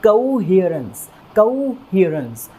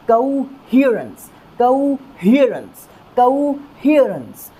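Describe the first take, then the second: First: coherence slow with the ह syllable stressed. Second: coherence slow and higher, ह syllable punched; strong stress on HE. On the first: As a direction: lean on the ह in coherence. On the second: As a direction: push the ह of coherence up hard. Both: Shown as a demonstration. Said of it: "ह वाली sound के ऊपर stress देंगे".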